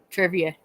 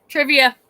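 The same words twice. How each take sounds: First: Said in the usual way. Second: "Trivia" called out higher and louder; calling it out. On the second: Real, not acted. Streamer perks up at the idea of trivia, calling out "Trivia". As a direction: announce "Trivia" like a game title.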